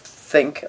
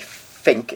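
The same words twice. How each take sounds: First: The word begins with a th sound. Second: The word begins with an f sound. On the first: The speaker calls it right. "we need to protect the TH sound in English" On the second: The speaker calls it wrong. "when people say think instead of think, I think they're being lazy"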